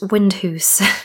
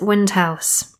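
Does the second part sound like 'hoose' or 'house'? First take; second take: hoose; house. First: The second syllable rhymes with 'goose'. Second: The second syllable rhymes with 'mouse'. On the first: This follows a local Scottish pronunciation. "Some internet sources say it's pronounced Windhoose" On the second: This follows an English-accent pronunciation. "So I'm going to pronounce it Windhouse"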